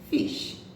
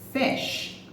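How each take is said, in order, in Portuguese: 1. A vogal é um som 'ee' tenso. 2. A vogal é um som 'ih' curto e frouxo. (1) "ao invés de fish" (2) "é como se fosse um é"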